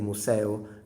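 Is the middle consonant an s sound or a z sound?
s. The middle consonant is a hissing s sound. "if you are southern, um, which is closer to Latin actually"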